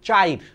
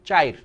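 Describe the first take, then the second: The two takes are said the same way.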